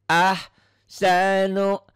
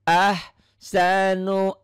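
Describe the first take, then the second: No difference in how they are said.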